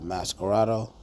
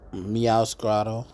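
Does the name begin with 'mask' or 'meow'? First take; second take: mask; meow. First: The name begins with the sound 'mask'. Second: The name begins with the sound 'meow'. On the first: The speaker calls it wrong. "I don't know why I keep saying Masquerado" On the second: The speaker calls it right. "I might have said it right for the first time ever"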